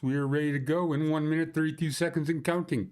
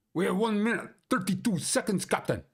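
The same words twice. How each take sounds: First: Said in the usual way. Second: Put-on high urgent Scottish accent, calling to the captain; mock Scotty Scottish brogue. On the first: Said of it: "countdown before going live". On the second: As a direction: report the countdown like a panicked Scottish engineer. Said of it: "your stupid Scottish accent".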